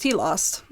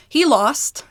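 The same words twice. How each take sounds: First: "He lost." said lower and softer; "He lost." fading down like a final verdict; dropping low. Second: Raised, pointed "He lost."; "He lost." said up high as the punchline; emphatic. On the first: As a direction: let "He lost." sink, low and quiet. Repeating the loss, dropping away. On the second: Repeating the loss for effect. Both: Real, not acted.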